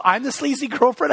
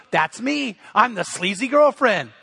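First: Higher-pitched questioning echo of the wife; incredulous retold question, pitched up; mock disbelief. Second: Emphatic playful declaration in the wife's words; mock-proud statement, not a question; retold amused acceptance. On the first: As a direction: imitate her taken-aback question. Retells wife's disbelieving question. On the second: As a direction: imitate her gleefully owning the title. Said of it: "she just starts laughing".

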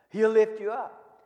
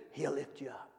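First: Said in the usual way. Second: Very soft, low answer; hushed. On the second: Shown as a demonstration. Preacher answering his own question to the congregation, hushed. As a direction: drop right down, almost under the breath.

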